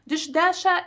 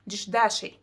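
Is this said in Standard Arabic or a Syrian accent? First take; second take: Standard Arabic; Syrian accent. First: It is said in Standard Arabic, ending in 'a'. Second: It is said in a Syrian accent, ending in 'i'. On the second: "in my Syrian accent, it would be"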